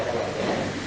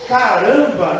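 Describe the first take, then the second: First: Breathy whisper, voice dropped; hushed under-breath exclamation. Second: Exclaiming aloud. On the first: Shown as a demonstration. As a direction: whisper it so no one hears. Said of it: "você fala". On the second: Acted. Reacting aloud at mother's house.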